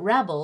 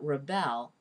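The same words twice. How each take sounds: First: The stress is on the first syllable. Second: The stress is on the second syllable. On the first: "stressed, then unstressed" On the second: "unstressed, then stressed"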